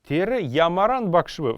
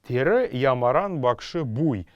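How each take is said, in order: First: The particle is reduced to a single v sound. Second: The particle is a full separate syllable bui. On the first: This is the modern form. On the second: This is the ancient form.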